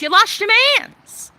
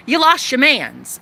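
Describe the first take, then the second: First: High, loud mocking sing-song on lost; high taunting sing-song at the bitter ex; taunting singsong. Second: Blunt repeat of the taunt to the ex; flatter taunt. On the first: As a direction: rub it in her face with a high tease. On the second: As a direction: state it plainly, sliding down on lost. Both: Real, not acted. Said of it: "repeated taunt".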